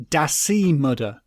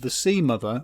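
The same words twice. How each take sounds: First: "Da Sea Mother" drawn out with dialect d sounds; Shetland dialect pronunciation. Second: Said in the usual way. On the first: Shown as a demonstration. Quoting the Shetland sea god's name, "Da Sea Mother" in dialect. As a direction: say "Da Sea Mother" slowly, hard d for each th. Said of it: "as they have it". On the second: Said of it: "or as they have it".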